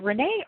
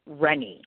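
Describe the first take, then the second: First: Renee as ruh-NAY; pronunciation guess. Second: Rennie as REN-ee, drawn out; pronunciation guess. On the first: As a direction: say Renee with stress on the second syllable. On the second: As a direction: say Rennie slowly with stress on the first syllable. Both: Shown as a demonstration. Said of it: "How do I pronounce it?".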